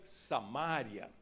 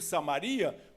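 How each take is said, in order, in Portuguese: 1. O acento cai na sílaba 'ma'. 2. O acento cai na sílaba 'ri'. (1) "Se tivesse acento agudo no A, eu leria Samária" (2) "na minha Bíblia não tem acento agudo no A"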